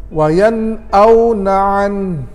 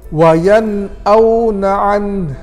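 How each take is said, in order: No difference in how they are said.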